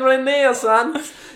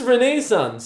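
First: The word is said in a strong Cork accent. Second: The word is said without a Cork accent. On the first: The speaker calls it wrong. "You're saying Renaissance. That's the most cork" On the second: The speaker calls it right. "It's just Renaissance"

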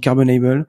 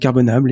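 First: It is pronounced the English way. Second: It is pronounced the French way.

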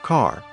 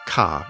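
First: The R after the vowel is pronounced. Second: The R after the vowel is dropped.

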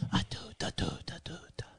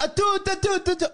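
First: The voice is soft and calm. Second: The voice is lively and excited. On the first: It calms the pet down. "or you can chill them out" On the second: It hypes the pet up. "use it either to hype them up"

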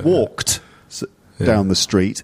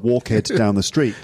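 First: The ending is a single t sound. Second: The ending is an extra 'hed' syllable. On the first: The speaker calls it right. "but it's walked down the street" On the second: The speaker calls it wrong. "you're going to think it's walkhead because it's ed at the end"

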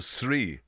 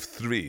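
First: The word begins with a plain t sound. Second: The word begins with a th sound. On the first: "or three" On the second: "instead of three"

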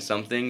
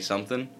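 First: The final g sound is clearly pronounced. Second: The final g sound is left off. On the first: "instead of saying something" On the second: "leaving the g sound off of that"

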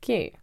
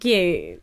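First: It is said with a sarcastic tone. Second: It is said sincerely and sweetly.

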